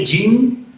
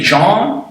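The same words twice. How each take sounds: First: The name is said with English sounds. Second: The name is said with French sounds. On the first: The speaker calls it wrong. "you don't say Jean" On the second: The speaker calls it right. "It's really Jean because he's French"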